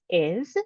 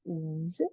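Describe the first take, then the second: First: The word is said fully with its vowel. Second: The word is reduced to a bare z sound. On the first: "strong pronunciation is is" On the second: "Sometimes it sounds as z in, a, in when you're speaking fluently"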